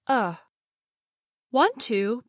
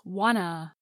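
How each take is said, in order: First: Both words are said fully with clear vowels. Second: The t sounds are dropped, giving 'wanna'. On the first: "Want-to becomes wanta" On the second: "The two t sounds drop off in fast speech, so wanta becomes wanna"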